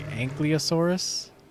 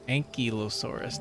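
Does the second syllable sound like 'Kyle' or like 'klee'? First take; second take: klee; Kyle. First: The L sound comes before the Y sound. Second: The second syllable sounds like 'Kyle'. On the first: The speaker calls it wrong. "when I was a kid, I pronounced this as like" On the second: The speaker calls it right. "but it's Ank Ankylosaurus ... So it's like Kyle"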